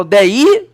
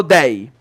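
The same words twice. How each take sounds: First: "dei" as de-Í, two syllables, rising on the I; "dei" misstressed as de-Í, pitch climbing at the end; stress on the I of "dei". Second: Said in the usual way. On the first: Shown as a demonstration. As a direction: stretch "dei" into de-Í, punching the final I. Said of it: "Eu falo dei ou eu falo dei?". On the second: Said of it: "ou eu falo dei".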